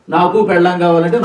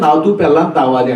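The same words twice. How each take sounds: First: Said in the usual way. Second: Every k turned into t, నాతూ and తావాలి; imitated speech defect. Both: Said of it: "వాడికి కా పలకదు".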